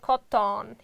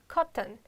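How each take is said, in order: First: The second vowel is kept before the n. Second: The second vowel is dropped before the n. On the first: The speaker calls it wrong. "I'm not pronounced like cotton. Yes, it's totally wrong" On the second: The speaker calls it right. "we are omitting"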